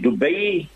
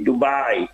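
First: It is said with an Arabic pronunciation. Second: It is said with an English pronunciation. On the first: "That is Dubai and Abu Dhabi in Arabic" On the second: "now you speak English, so you say Dubai"

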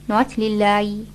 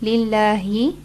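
First: The final h sound sounds like a y. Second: The final h sound is clear. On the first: The speaker calls it wrong. "It almost sounds like a ya" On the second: The speaker calls it right. "make sure you pronounce the ha correctly"

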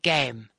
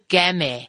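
First: The vowel is long, like in 'day'. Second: The vowel is short, like in 'gap'. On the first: The silent final letter is applied. The speaker calls it right. "instead of game" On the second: The silent final letter was ignored. The speaker calls it wrong. "or game instead of"

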